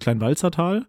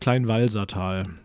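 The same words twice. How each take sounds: First: The middle consonant sounds like 'ts', as in Walzer. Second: The middle consonant is a plain 's' sound. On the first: The speaker calls it wrong. "weil so wird es ja wahrscheinlich auch ausgesprochen. Denk mal, es wird sich mit Z geschrieben" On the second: The speaker calls it right. "Aber ist es nicht. Es ist das Kleinwalsertal"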